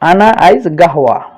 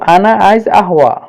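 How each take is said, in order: First: The last word begins with a 'g' sound. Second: The last word begins with a vowel sound.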